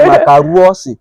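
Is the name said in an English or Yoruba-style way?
Yoruba. The name is said with Yoruba-style extra vowels. "I don't hear one woman say"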